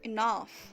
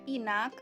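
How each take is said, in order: First: The word ends with an 'af' sound. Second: The word ends with an 'ak' sound. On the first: The speaker calls it right. "tapi dibaca enough" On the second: The speaker calls it wrong. "Jangan lagi dibaca inak"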